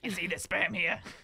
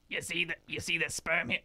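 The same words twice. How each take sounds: First: It is said in a put-on character voice. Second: It is said in the speaker's normal voice.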